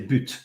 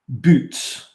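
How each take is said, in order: First: The word is said with a French pronunciation. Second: The word is said with an English pronunciation. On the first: The speaker calls it right. "you say butte" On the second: The speaker calls it wrong. "You wouldn't say that"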